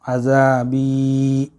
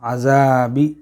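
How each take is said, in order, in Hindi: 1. आख़िरी स्वर खींचकर लंबा बोला गया है। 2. आख़िरी स्वर काटकर छोटा बोला गया है। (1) "बा को ज़रा खींच के पढ़ना है" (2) "ये कट हो जाएगा और गलत हो जाएगा"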